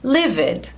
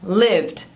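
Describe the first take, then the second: First: The word is said with two syllables. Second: The word is said with one syllable. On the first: The speaker calls it wrong. "eu escuto muita gente falando livid" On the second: The speaker calls it right. "Uma sílaba só com som de D no final"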